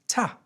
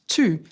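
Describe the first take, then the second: First: The vowel is a weak schwa sound. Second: The vowel is a full oo sound. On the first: "it becomes a schwa sound, ah" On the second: "Instead of an oo sound"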